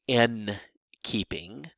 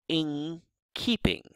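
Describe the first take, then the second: First: The n in 'in' is a plain n sound. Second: The n in 'in' becomes an ng sound. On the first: The speaker calls it wrong. "So I don't say in keeping" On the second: The speaker calls it right. "but rather I say in keeping"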